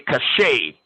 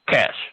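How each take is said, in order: First: It is said with two syllables, ending in 'ay'. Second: It is said with one syllable, like 'cash'. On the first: The speaker calls it wrong. "Some people say cachet" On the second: The speaker calls it right. "it's actually cash, like money"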